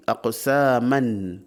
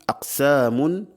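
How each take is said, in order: First: Slow "aqsaman" ending clearly in -an; accusative ending -an. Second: "aqsamun" ending clearly in -un; nominative ending -un. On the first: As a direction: draw out "aqsaman" with an a sound in the last syllable. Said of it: "si on dit aqsaman bin nasb". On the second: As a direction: say "aqsamun" with an oo sound in the last syllable. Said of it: "si on dit aqsamun bir raf'". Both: Shown as a demonstration.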